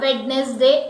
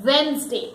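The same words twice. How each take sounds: First: WEDNESDAY as WED-nes-day, sounding the D; wrong pronunciation. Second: WEDNESDAY as WENZ-day, silent first D; correct pronunciation. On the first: Teacher rejecting the wrong pronunciation. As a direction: pronounce every syllable of WEDNESDAY as spelt. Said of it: "It is not Wednesday". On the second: Teacher correcting learners, correct pronunciation. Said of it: "it is Wednesday". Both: Shown as a demonstration.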